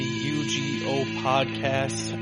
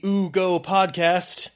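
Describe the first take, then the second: First: The name is spoken as three separate letters. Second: The name is spoken as a single word. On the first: "I was going to say something different than U G O podcast" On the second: "pronounce it Ugo"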